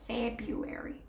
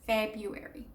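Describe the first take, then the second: First: The first R is dropped, like Feb-you-airy. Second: The first R is dropped, like Feb-you-airy.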